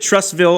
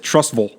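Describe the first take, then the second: First: Trussville with a clear, full "vill" ending; spelled-out pronunciation. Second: Trussville with the ending reduced to "vul"; local pronunciation. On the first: Host asks caller about his pronunciation, Trussville with a full "vill". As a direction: say Trussville as written, second syllable like "will". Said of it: "Did you pronounce it Trussville on purpose?". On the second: Host quotes his friend who lives there, Trussville ending in "vul". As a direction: say Trussville low, swallowing "ville" into "vul". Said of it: "he pronounces it Trussville". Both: Retold or imitated.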